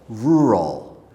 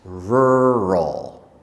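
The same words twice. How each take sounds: First: The first syllable is a simpler 'roo' sound. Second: The first syllable is a full 'rur' sound. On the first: "the easier ru at the beginning" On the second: "the first way has r at the beginning"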